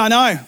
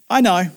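First: It is said in a curt, irritated tone. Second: It is said in a polite, gentle tone. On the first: "the way I imagined him saying it" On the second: "Elisha could have said that politely"

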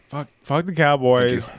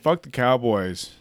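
First: It is said at a louder, stronger volume. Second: It is said at a quieter, ordinary volume.

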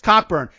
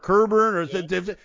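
First: The first syllable sounds like cock. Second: The first syllable sounds like ker. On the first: This follows how the name is spelled. "Look at the dude's name. It's Cockburn" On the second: This is how it is said on TV. "or Kerburn"

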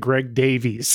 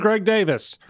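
First: The surname is said differently from Davis. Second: The surname sounds exactly like Davis. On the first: This is how everyone else says it. "everyone else, including the other like hosts and all the guests, all say Greg Davies" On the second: This is how the bearer of the name says it. "he says it just like [name]"

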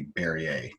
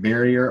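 First: The name is said in a fancier, posher way. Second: The name is said in a plain, everyday way. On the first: "if you want to be really fucking fancy, you could say Berrier" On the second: "You can pronounce that barrier"

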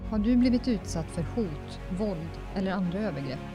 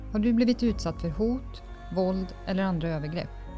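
Both takes have the same delivery.

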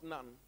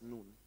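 First: It sounds like the English word for nun. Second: It is pronounced the Hebrew way. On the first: The speaker calls it wrong. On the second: The speaker calls it right. "In Hebrew, that's Nun"

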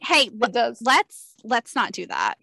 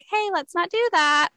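First: It is said firmly and assertively. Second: It is said softly and gently. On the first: "I say it more assertively" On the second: "than like"

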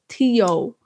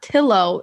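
First: The double L is sounded as a Y. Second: The double L is sounded as an L. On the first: The speaker calls it right. "Two L's is Y" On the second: The speaker calls it wrong. "It's not Tillo"

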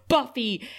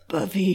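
First: It is said in a plain voice. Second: It is said imitating Riley's voice.

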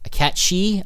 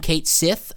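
First: The second part ends with an 'ee' sound. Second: The second part ends with a 'th' sound. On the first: This is the official pronunciation. "I don't like his real pronunciation" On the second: This is the speaker's preferred pronunciation. "I will call him Kate Sith"

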